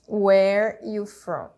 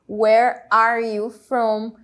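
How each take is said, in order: First: The word 'are' loses its sound. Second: Every word is said, including 'are'. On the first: "O are vai perder o som" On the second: "Palavra por palavra"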